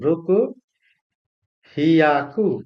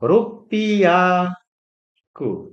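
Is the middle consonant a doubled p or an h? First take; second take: h; doubled p. First: The number has an h sound before yaku. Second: The number has a doubled p before yaku. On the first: The speaker calls it wrong. "রুকু হিয়াকু হওয়ার কথা ছিল" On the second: The speaker calls it right. "এটাকে ডাবল করে দেয় উচ্চারণ"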